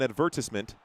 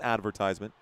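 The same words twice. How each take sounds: First: It is said with a British pronunciation. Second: It is said with an American pronunciation. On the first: This is how viewers in Britain say it. "you guys would probably call it an advertisement" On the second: This is how the speaker says it. "not advertisement"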